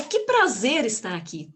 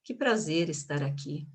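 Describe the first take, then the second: First: Mean it, punching "prazer" with delight; enthusiastic. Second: Low, lifeless delivery with no energy; unenthusiastic. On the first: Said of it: "de acordo com a energia". (com energia e entusiasmo) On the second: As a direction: say the welcome as if you don't mean it. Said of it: "Eu não poderia dizer". (sem energia, desanimado) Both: Shown as a demonstration.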